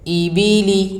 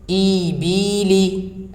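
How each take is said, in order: First: The vowels are said short and quickly. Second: The vowels are drawn out long. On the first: The speaker calls it right. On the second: The speaker calls it wrong.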